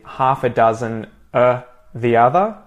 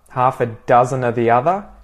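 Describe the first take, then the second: First: The word 'of' is swallowed and almost disappears. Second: The word 'of' is pronounced clearly and fully.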